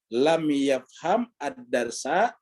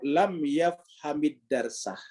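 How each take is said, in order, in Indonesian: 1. Setiap kata dilafalkan terpisah, tanpa disambung. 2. Kata-katanya disambung menjadi satu frasa yang utuh.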